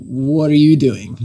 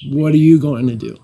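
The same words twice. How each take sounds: First: Said in the usual way. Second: Laughing. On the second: Shown as a demonstration. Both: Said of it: "Which I translate as".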